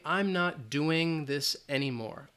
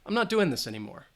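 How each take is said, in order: First: The ending of 'doing' has a full ng sound. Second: The ending of 'doing' drops the g sound. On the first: "if I say the G and you're speaking slowly" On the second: "If we drop the G"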